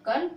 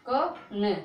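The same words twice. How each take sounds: First: "कन" joined into one syllable; blended syllable. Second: "क न" split into two separate sounds; sounded out. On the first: Teacher joins the letters for learners, blended "कन". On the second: Teacher builds a syllable for learners, sounded out "क न". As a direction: say "क", pause, then "न". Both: Shown as a demonstration. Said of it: "का बोलो".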